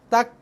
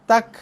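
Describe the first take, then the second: Both takes have the same delivery.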